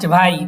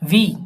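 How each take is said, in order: First: It is pronounced like English 'why'. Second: It is pronounced like 'vee' with a v sound. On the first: The speaker calls it wrong. "নিশ্ট ভাই" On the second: The speaker calls it right. "ভি ভি"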